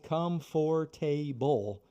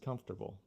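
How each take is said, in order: First: Every syllable is said fully, as spelled. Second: The middle syllables are squeezed and reduced. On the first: The speaker calls it wrong. "it's spelled comfortable" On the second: The speaker calls it right. "but the pronunciation is comfortable"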